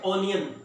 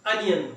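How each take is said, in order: First: ऑनियन with a long open "aw" at the start; mispronounced ऑनियन with a rounded first vowel; wrong pronunciation. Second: अनियन with a short "uh" at the start; teacher models अनियन with a short neutral first vowel; correct pronunciation. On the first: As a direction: say ऑनियन as "AW-nee-un", the common mistake. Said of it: "ये गलत pronunciation है". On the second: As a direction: say अनियन as "UH-nee-un", the right way. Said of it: "इसका सही तलफ़ुज़ क्या है". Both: Shown as a demonstration.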